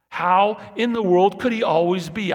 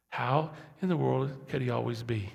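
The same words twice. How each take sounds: First: High and loud in amazement, could rising; loud marvelling question. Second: Said in the usual way. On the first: Acted. Preacher marvels aloud to the church, loud and high. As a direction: cry it out in wonder.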